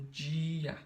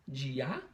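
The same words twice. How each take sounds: First: "dia" with a drawn-out DI, DII-a; stress on DI. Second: "Dia" with the final A stressed and rising, di-A; stress on the wrong syllable. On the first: Teacher contrasting for pupils, long stressed DI in "dia". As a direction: hold the first syllable of "dia", let the A drop. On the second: Teacher trying the swapped stress, last syllable of "Dia" stressed. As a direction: push the end of "Dia" up like a question. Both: Shown as a demonstration. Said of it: "tenta fazer uma mais forte que a outra".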